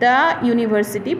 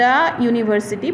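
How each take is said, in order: First: 'The' is said with a short uh vowel. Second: 'The' is said with a short uh vowel.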